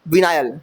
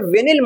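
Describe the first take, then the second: First: The second syllable has a long 'ai' sound. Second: The second syllable has a short 'i' sound. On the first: The speaker calls it right. "विनाइल बोलो यार" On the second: The speaker calls it wrong. "विनिल बोल रहा हूँ मैं यार"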